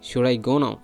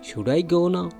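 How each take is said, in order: First: It is asked in an angry tone. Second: It is asked in a polite tone.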